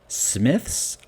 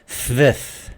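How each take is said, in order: First: The s sounds are pronounced as a clear s. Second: The s sounds are pronounced like th.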